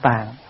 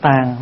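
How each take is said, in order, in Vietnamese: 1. Từ "tàng" có giọng thấp, bị ngắt đột ngột. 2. Từ "tàng" có thanh huyền, giọng thấp và xuống nhẹ. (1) "đừng có đọc là tàng" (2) "mình nên đọc là tàng"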